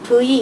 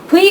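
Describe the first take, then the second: First: The letter is said with a voiced v sound. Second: The letter is said in the everyday casual way. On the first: The speaker calls it right. "사실 이거는 V라고 읽어야 합니다" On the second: The speaker calls it wrong. "우리가 그냥 V 이렇게 얘기하는데"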